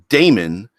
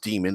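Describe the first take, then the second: First: The first syllable sounds like 'day'. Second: The first syllable sounds like 'dee'. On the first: "I like pronouncing it Damon" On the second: "it's pronounced demon"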